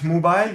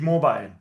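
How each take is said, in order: First: Mobile with an oo, "mubile"; U as written. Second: Mobile with an O, "mo-bile"; U read as O. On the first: Teacher showing student the spelling, mobile with an oo. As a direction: say the first vowel of mobile as oo. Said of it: "you write mobile, you read mobile". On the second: Teacher showing student the reading, mobile with an oh. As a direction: say the first vowel of mobile as oh. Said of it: "u or u is o". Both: Shown as a demonstration.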